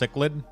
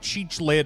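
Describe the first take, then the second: First: The name does not begin with 'cheech'. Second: The name begins with a 'cheech' sound. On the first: The speaker calls it right. "it's pronounced Cichlid" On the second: The speaker calls it wrong. "I called you like Cheech Lid"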